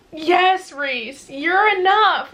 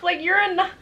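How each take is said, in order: First: Emphatic. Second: Higher, with a teary laugh; half laugh, half cry, overwhelmed; laughing through tears. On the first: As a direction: insist it with all your heart. Gushing at a character. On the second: Overcome while gushing. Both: Real, not acted.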